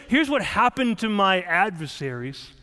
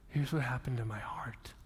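First: Said in the usual way. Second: Hushed whisper on "heart". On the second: Shown as a demonstration. Preacher giving the psalm's true answer in a whisper. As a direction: whisper it like a secret. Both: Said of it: "He doesn't say".

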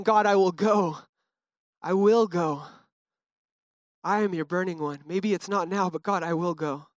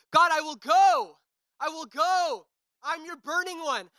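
First: Calm, trusting worship line; surrendered. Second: High, straining cry to God; desperate high worship cry; retold scream. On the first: Retold or imitated. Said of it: "a little bit different of a heart posture". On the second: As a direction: fight it out, reaching upward. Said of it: "I legit remember screaming".

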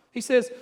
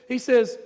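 The two takes are said the same way.

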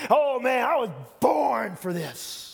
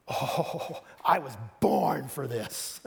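First: Slow, loud and much higher, showing off; louder, higher boast of glory; glory-hog shout. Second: Slow, lofty, savouring it; slow self-satisfied boast; grand and self-pleased. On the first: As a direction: belt it like a star taking the applause. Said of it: "you get all the glory". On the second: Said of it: "one way of saying that". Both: Shown as a demonstration.

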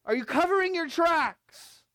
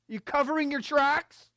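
First: Louder, higher, accusing question; pressing question. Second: Pointed question. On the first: Preacher confronting the church, loud and high. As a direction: press the church hard on covering. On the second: Preacher questions the church. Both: Acted.

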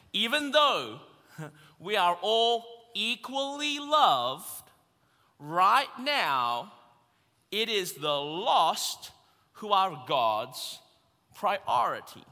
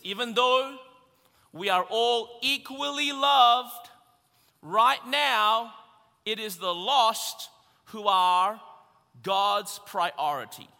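First: Slow, spaced out phrases; slow it right down so all can follow; really slowly, word by word. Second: First time, punched and forceful; emphatic statement. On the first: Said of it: "really slowly in my best American accent". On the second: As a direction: declare it boldly. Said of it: "I'm gonna say that again really, really slowly". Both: Shown as a demonstration.

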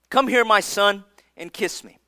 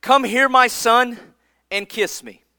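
First: Softer repeat. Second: Tender invitation. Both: Retold or imitated. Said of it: "his father Isaac said to him".

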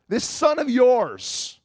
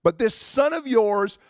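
First: "son" drawn out, slow and pressed; stress on son. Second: "son" pressed inside the brother's complaint; stress on son. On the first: Shown as a demonstration. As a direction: lean hard and slow on "son". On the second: Retold or imitated. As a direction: hit "son" with resentment. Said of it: "the good son was walking in that place and saying".

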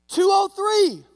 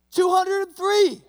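First: High, loud eager shout; the new guy bravely shouts his joke; hopeful loud call out the window; yelled number. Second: High, loud and slow, spelling out every part; retrying the joke with a slow loud shout; slower yelled retry. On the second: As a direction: shout it again, more deliberately. New guy yells number again, slower. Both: Retold or imitated.

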